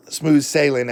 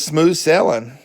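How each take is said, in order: First: "sailing" carefully said as "SAY-ling"; full long AY and a clear -ing in "sailing"; corrected pronunciation. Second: Southern US "sailing" said as "sellin'"; southern accent. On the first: Shown as a demonstration. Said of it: "I should say". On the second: Real, not acted. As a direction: say SAILING the Southern way, "SELL-un", dropping the g. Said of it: "Pardon my southern accent".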